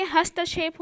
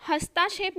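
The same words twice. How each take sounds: First: "हस्तक्षेप" with short ta, hasta-kshep; correct short vowel. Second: "हस्ताक्षेप" with long taa, hastaa-kshep; wrong long vowel. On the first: Teacher correcting the word, pronounced properly. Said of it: "हस्तक्षेप होता है". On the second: Teacher quoting the error to students, mispronounced. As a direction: lengthen the middle vowel of "हस्ताक्षेप". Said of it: "नहीं होके". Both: Shown as a demonstration.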